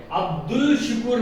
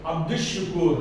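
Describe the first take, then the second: First: अब्दुल शुकूर with a clear L, shown as the mistake; अब्दुल शुकूर, full L before shin; wrong reading. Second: अब्दुश शुकूर with the L assimilated to SH; अब्दुश शुकूर, L silent before shin; correct sun-letter reading. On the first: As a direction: pronounce the L in अब्दुल शुकूर, as the error. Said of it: "नहीं बोलेंगे". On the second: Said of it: "अब्दुल शुकूर नहीं बोलेंगे". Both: Shown as a demonstration.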